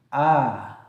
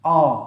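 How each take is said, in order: First: The vowel sounds thin and open, with spread lips. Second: The vowel sounds heavy and rounded, almost like o. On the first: The speaker calls it right. "suara seolah-olah mengalir dari mulut" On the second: The speaker calls it wrong. "Nggak dibaca seperti ini"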